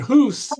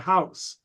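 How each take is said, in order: First: The vowel is a long 'oo' sound. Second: The vowel is an 'ow' sound. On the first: This is the older Middle English pronunciation. "the way Chaucer would pronounce it" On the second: This is the later, shifted pronunciation. "by Shakespeare's time, it was already closer to house"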